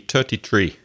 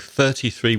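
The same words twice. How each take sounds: First: The number starts with a plain t sound. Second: The number starts with a th sound.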